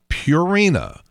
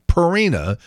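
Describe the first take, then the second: First: The first syllable sounds like 'pure'. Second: The first syllable does not sound like 'pure'. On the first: The speaker calls it right. "it's Purina, like pure" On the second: The speaker calls it wrong. "it's not Purina"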